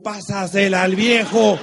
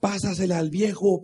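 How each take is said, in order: First: Louder and slower, "viejo" drawn out; retold shout. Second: Said in the usual way. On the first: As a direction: call it across the court like the kids did. (grito recordado, más fuerte y lento) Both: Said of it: "le gritaban a los".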